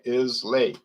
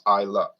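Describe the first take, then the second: First: The word ends in an 'ay' sound. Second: The word ends in an 'uh' sound. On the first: The speaker calls it wrong. "I pronounce them as read" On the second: The speaker calls it right. "but it's pronounced Isla"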